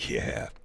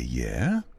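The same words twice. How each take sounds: First: It sounds doubtful and unbelieving. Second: It sounds curious and questioning.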